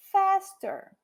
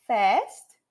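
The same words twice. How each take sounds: First: Faster pitched high then falling; comparative faster. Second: Fast with a rising tune; Fast said rising, like the first of a list; base form fast. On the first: Teacher contrasts base and comparative: faster falling. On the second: Teacher contrasts base and comparative: Fast rising. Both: Shown as a demonstration. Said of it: "ele aqui tá no comparativo".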